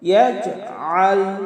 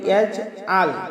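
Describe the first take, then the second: First: The middle consonant is pressed from mid-throat. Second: The middle consonant is a plain glottal stop. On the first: The speaker calls it right. "আইন হলকের মধ্যখান থেকে একটু চাপ দিয়ে আমরা উচ্চারণ করব" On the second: The speaker calls it wrong. "আইনকে হামজা বানিয়ে ফেলি"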